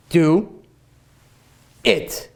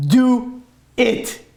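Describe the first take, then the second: First: Drawn out. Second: Said in the usual way. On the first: Shown as a demonstration. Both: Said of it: "I'll say it one more time".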